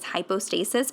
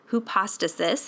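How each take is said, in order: First: It is pronounced the way medical English says it. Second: It is pronounced the way the Greek term sounds. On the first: The speaker calls it wrong. "I have a medical background, and so that's how I would read that" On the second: The speaker calls it right. "the correct pronunciation is hypostasis"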